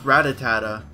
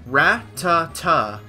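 First: The name is said with four syllables. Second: The name is said with three syllables. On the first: The speaker calls it wrong. "not pronounced Ratatata" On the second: The speaker calls it right. "It is Ratata"

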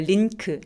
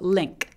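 First: It has a plain n sound before the k. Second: It has a nasal ng sound before the k. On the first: The speaker calls it wrong. "링크 아니고" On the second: The speaker calls it right. "응 소리 다음에 크로 발음을 됩니다"

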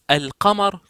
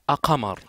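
First: The L is clearly pronounced before the q. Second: The L is dropped before the q. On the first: The speaker calls it right. "C'est mieux de dire" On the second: The speaker calls it wrong. "que de dire"

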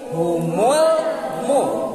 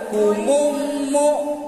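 First: The L sound is pronounced clearly before M. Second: The L sound merges into the following M. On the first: The speaker calls it right. "tapi humul mu" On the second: The speaker calls it wrong. "Elna aya teh humum mu"

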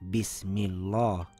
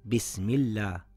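First: The l sound is pronounced thick and heavy. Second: The l sound is pronounced thin and light. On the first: The speaker calls it wrong. "and not" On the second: The speaker calls it right. "the Laam on the name of Allah subhanahu wa ta'ala will be pronounced in a thin sound"

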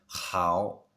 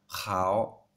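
First: It starts with a raspy sound between h and kh. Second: The same.

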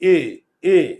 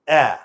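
First: The vowel is closed, like the e in bed. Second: The vowel is open, like the a in cat. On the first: "মুখের চোয়াল কিন্তু খুলে না" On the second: "আমার মুখের চোয়াল খুলে"

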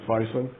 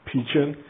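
First: The name follows its English spelling. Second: The name follows a Cantonese-style pronunciation. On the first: The speaker calls it wrong. "Some of you guys pronounce it Phicen" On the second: The speaker calls it right. "the proper way to pronounce it is actually Phicen"

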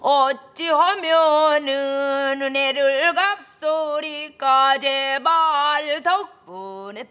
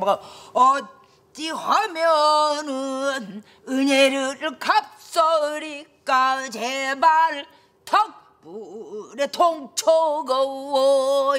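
First: It is said flat and even, without contrast. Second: It is said with strong, contrasting bursts of breath.

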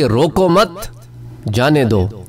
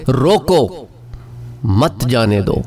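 First: The pause comes right after 'mat'. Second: The pause comes right after 'roko'.

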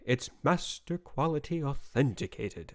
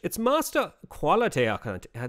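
First: It is said in the speaker's normal accent. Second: It is said in a put-on British accent.

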